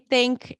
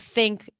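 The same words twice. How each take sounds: First: It starts with a T sound. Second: It starts with a TH sound. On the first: "T H D T" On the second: "instead of think"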